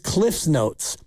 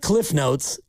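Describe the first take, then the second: First: Cliff is said with an s sound after it. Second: Cliff is said with no s sound after it. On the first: The speaker calls it right. "It's Cliff's Notes. It's the man's notes" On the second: The speaker calls it wrong. "It's not Cliff Notes"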